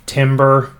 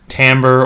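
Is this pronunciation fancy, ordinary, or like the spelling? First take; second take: like spelling; ordinary. First: It is said the way the spelling suggests. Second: It is said with the ordinary accepted pronunciation. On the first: The speaker calls it wrong. "it's spelled like it should be timber" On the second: The speaker calls it right. "but it's actually, for complicated etymological reasons, pronounced timbre"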